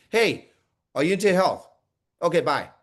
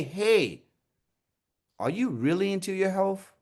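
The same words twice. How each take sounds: First: Quick, cursory check-in then dismiss; perfunctory asking. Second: Genuinely interested, caring question; caring emphasis. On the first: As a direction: ask just to get it over with. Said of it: "are you just asking". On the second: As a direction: lean on "really" with sincere interest. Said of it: "saying the caring words". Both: Shown as a demonstration.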